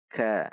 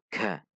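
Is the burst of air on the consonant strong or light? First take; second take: light; strong. First: The consonant has a light puff of air. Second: The consonant has a strong puff of air. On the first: The speaker calls it right. "Namun dibaca ka" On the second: The speaker calls it wrong. "namun tidak terlalu ka"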